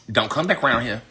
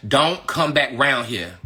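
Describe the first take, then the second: First: Said in the usual way. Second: "Don't come back round here" slowed, word by word; slow, weighted "Don't come back round here"; deliberate warning. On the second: Real, not acted. Warning repeated with more force.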